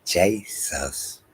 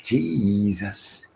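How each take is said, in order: First: Slow "Jesus" said as CHAY-sus; two separate syllables in "Jesus", JAY then SUS; pronounced JAY-sus. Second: "Jesus" drawn out as JEEE-zus; English pronunciation. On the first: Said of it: "That's why I say Jesus". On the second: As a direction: stretch the EE in "Jesus". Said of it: "That's why y'all saying". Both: Shown as a demonstration.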